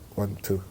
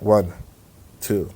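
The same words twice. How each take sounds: First: The two counts follow each other very quickly. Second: The two counts are spaced slowly apart. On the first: The gap lasts a sixth of a second. "a sixth of a second's like" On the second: The gap lasts one second. "if a second's like"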